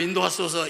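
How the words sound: The voice is full, strong and clear. The one praying is healthy. "이런 보통 소리가 아니고"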